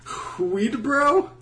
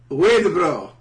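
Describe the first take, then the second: First: The name begins with an audible H sound. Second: The name begins with no H sound. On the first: The speaker calls it wrong. "You don't pronounce the H" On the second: The speaker calls it right. "that's better"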